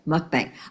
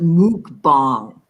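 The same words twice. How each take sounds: First: The word has an ordinary English-style pronunciation. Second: The word has a Thai-sounding pronunciation. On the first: This is how the speaker personally says it. "I say mukbang" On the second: This is how some experts say it. "like it was from Thailand"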